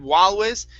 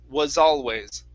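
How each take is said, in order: First: The S is dropped, replaced by an L sound. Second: A clear S sound ends the first word. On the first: The speaker calls it wrong. "you're combining these, saying walways" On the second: The speaker calls it right. "you need to pronounce this S"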